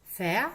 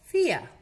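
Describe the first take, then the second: First: "Fea" loud, e gliding into schwa; "ea" diphthong drill. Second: "Fia" loud and high, i gliding into schwa; "ia" diphthong drill. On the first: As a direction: model "Fea" with no R sounded. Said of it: "que son el E A". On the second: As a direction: model "Fia" with no R sounded. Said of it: "y el I A". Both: Shown as a demonstration.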